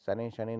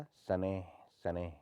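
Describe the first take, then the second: First: शनैः शनैः quickly joined as shane-shane; no visarga. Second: Each शनैः ending in a breathy h; sounded visarga. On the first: Teacher shows the error, शनैः without visarga. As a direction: drop the final h of शनैः. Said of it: "नहीं होता". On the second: Teacher corrects it, शनैः with sounded visarga. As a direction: separate the two शनैः with breath. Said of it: "होता है". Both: Shown as a demonstration.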